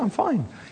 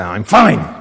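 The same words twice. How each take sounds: First: It is said in a calm, relaxed tone. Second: It is said in a tense, upset tone. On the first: The person really is okay. "you know it's the first" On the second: The person is actually troubled and not okay. "then they probably are freaked out, insecure, neurotic, and emotional"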